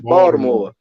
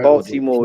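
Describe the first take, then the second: First: The middle consonant is a D sound. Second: The middle consonant is a clear T sound. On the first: The speaker calls it right. "say Baltimore with a D. We don't put the T" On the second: The speaker calls it wrong. "We don't say"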